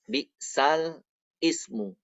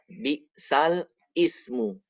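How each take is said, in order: The two takes are said the same way.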